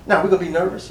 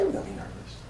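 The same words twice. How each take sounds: First: Said in the usual way. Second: Hushed, confiding whisper of nerves. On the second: Shown as a demonstration. Preacher confessing his nerves to the church, whispered. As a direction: drop to a breathy aside as if admitting a secret. Whispered repeat of nervous line.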